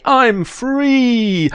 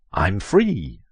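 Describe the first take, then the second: First: Very high, louder cry of freedom; hammed-up joy. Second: Said in the usual way. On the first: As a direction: shriek it out like a freed prisoner. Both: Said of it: "You say".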